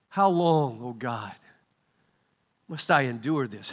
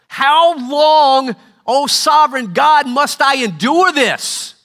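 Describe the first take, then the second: First: It is said with a weary sigh. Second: It is said in a frustrated tone.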